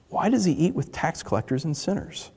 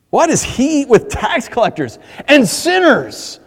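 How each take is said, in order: First: It is read plainly, without emotion. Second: It is asked with scorn and indignation.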